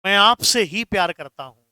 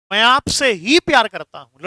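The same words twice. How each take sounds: First: Said in the usual way. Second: ही pressed a bit louder than the rest; stress on ही. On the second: Shown as a demonstration. Teacher voicing Bunty's line to Mona, with ही stressed. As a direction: lean on ही, only you. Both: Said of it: "जैसे मैं कहूं".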